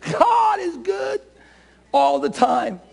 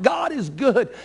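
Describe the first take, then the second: First: Triumphant shout. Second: Said in the usual way. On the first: Shown as a demonstration. Preacher shouts to the congregation, high triumphant shout. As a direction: shout God is good in triumph. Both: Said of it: "shout unto God with a voice of triumph".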